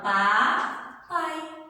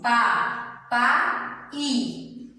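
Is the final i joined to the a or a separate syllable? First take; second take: joined; separate. First: The final i glides weakly into the a. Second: The final i is said as its own syllable. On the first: The speaker calls it right. "Eu falo pá, pai" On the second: The speaker calls it wrong. "Eu não falo assim"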